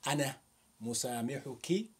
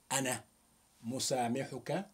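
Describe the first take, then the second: First: مسامحك said musamihuki, ending in a clear -ki; feminine ending. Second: مسامحك said musamihuka, ending in a clear -ka; masculine ending. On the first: Teacher showing the form used with a woman, musamihuki with -ki. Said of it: "speaking to a woman". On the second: Teacher showing the form used with a man, musamihuka with -ka. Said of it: "speaking to a man". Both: Shown as a demonstration.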